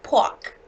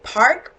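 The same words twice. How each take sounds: First: Park said pahk, no r, Boston style; Boston accent park. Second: Said in the usual way. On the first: Shown as a demonstration. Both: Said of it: "Kind of mixed up".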